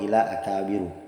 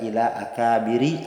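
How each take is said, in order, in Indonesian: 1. Kata terakhir diakhiri dengan vokal u. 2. Kata terakhir diakhiri dengan vokal i. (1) "Tidak boleh dibaca" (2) "Tidak boleh dibaca"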